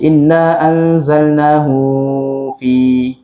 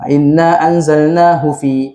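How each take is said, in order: First: The vowel in 'hu' is drawn out long. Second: The vowel in 'hu' is kept short. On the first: The speaker calls it wrong. "Tak boleh kita baca ... pelik eh bacaan tu" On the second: The speaker calls it right. "pendek je"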